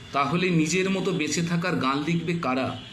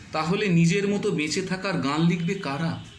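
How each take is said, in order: The two takes are said the same way.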